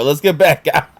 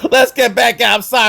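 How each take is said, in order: First: Said in the usual way. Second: Higher, laughing as he tries to move on; laughing through it. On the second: Real, not acted. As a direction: laugh while pulling yourself back on track. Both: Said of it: "I got emotional for a second there".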